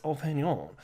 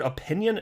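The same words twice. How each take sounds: First: "opinion" with a long O at the start, oh-PIN-yon, falling; "opinion" as oh-PIN-yon, said flat and firm; the right way. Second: "Opinion?" with a short uh at the start, a rising questioning tune; mock "Opinion?" with a rise at the end; mocking the weird way. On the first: Shown as a demonstration. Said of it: "that's the right way to say the word opinion". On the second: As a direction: imitate the way others say "Opinion?", starting on uh-PIN-yun. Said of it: "say it weird".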